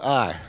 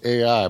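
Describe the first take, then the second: First: The name is said like the word I. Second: The name is said as the letters A-I. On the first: "We'll call it I" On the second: "I used to pronounce this AI"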